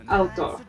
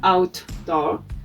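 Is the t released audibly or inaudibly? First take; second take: inaudibly; audibly. First: The t has no audible release. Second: The t has an audible release. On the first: The speaker calls it right. "we said outdoor" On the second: The speaker calls it wrong. "We don't pronounce outdoor"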